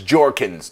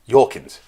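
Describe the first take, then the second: First: The name begins with a hard J sound. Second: The name begins with a soft Y sound. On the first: The speaker calls it right. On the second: The speaker calls it wrong.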